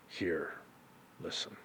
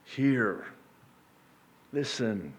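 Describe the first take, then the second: First: Whispered, much softer. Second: Said in the usual way. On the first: Shown as a demonstration. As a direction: breathe it out in a hush. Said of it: "drops to a whisper". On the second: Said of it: "You're tuning me out".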